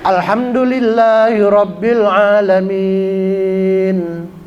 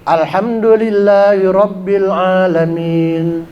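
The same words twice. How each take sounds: First: The final vowel is held moderately long. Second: The final vowel is held only briefly. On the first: "agak cepat sedikit, empat harokat aja" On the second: "lebih cepat lagi ... cuman dua harokat"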